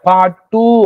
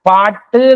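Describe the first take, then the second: First: The final u vowel is said full length. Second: The final u vowel is cut short. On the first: The speaker calls it wrong. "அப்படின்னு நினைச்ச மாட்டோம், சொல்ல மாட்டோம்" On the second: The speaker calls it right. "தான் சொல்லுவோம்"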